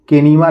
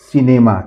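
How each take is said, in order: First: The word begins with a k sound. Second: The word begins with an s sound. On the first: The speaker calls it wrong. "इसको केनीमा नहीं पढ़ेंगे" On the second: The speaker calls it right. "इसको हम पढ़ेंगे सिनेमा"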